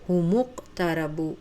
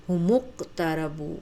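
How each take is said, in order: Both takes have the same delivery.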